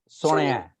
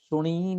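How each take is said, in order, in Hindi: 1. इस शब्द का अंत 'ya' ध्वनि से होता है। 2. इस शब्द का अंत लंबी 'ee' ध्वनि से होता है। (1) "ਇੱਥੇ ਜਿਹੜਾ ਉਚਾਰਨ ਹੈ ਉਹ ਹੈਗਾ ਸੁਣਿਆ" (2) "ਸੁਣੀ ਨਹੀਂ"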